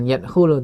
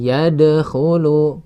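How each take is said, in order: First: The d sound has no bounce. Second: The d sound has a light bounce. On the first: The speaker calls it wrong. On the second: The speaker calls it right. "pantulan ringan saja"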